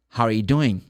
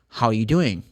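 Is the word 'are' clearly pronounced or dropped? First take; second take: dropped; dropped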